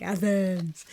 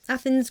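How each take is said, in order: First: "Athens" stretched out long and softer; lingering, playful "Athens"; imitating own delivery. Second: Said in the usual way. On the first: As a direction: re-enact a drawn-out "Athens". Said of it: "was like that".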